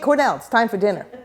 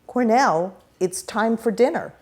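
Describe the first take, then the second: First: It is said quickly with slurred word endings. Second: It is said carefully with clear word endings. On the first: This is how the speaker talks at home. "I speak quickly, I slur, I'm sloppy" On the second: This is how the speaker talks in formal settings. "This is my formal Doctor [name]'s speech"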